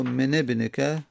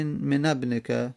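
First: من ابنک as "mene-bnika"; kasra linking vowel. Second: من ابنک as "mena-bnika"; fatha linking vowel. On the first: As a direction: link من ابنک with a short e after the n. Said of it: "فالکسر اکثر نحو". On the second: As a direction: link من ابنک with a short a after the n. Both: Shown as a demonstration.

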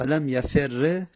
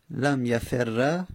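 First: لم یفر read "lam yaferre"; slow لم یفر, doubled r ending in e; kasra ending. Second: لم یفر read "lam yaferra"; very slow لم یفر, doubled r ending in a; fatha ending. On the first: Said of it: "کسره بدیم". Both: Shown as a demonstration.

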